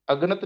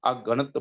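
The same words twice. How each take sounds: First: ਅਗਣਤ run together as "AG-nat"; misread as agnat. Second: ਅਗਣਤ as "a-GANT"; prefix kept separate. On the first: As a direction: say ਅਗਣਤ quickly as one word, "aganat", prefix not separated. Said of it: "ਅਗਣਤ ਨਹੀਂ ਪੜ੍ਹਨਾ". (ਅਗਣਤ ਨੂੰ ਜੋੜ ਕੇ "ਅੱਗਣਤ" ਵਾਂਗ ਬੋਲੋ) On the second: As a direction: say ਅਗਣਤ with the "a" apart and weight on "gant". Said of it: "ਅਗਣਤ ਪੜ੍ਹਨਾ". (ਅਗਣਤ ਨੂੰ "ਅ-ਗਣਤ" ਵੱਖ ਕਰਕੇ ਬੋਲੋ) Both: Shown as a demonstration.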